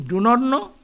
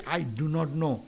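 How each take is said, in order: First: "not" pushed up and louder; stress on not. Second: Said in the usual way. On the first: Shown as a demonstration. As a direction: lean hard on "not". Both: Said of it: "One is emphasizing".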